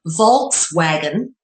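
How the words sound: It is said the English way, with a V.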